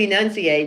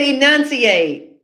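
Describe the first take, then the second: First: Said in the usual way. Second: "Enunciate." said slowly with every syllable drawn out; enunciate, crisply. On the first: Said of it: "You better say". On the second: Retold or imitated. Quoting her friend, slow and overpronounced. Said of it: "she said".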